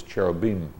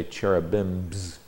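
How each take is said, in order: First: "cherubim" ending on m, without any s; Hebrew plural form. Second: "cherubims" with an added buzzing s at the end; rejected plural form. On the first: Teacher gives the Hebrew plural, "cherubim" with no final s. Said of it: "The plural in Hebrew is cherubim". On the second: Teacher shows the form he avoided, "cherubims" with final s. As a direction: sound the extra English plural s on "cherubims". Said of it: "You notice I didn't say cherubims". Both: Shown as a demonstration.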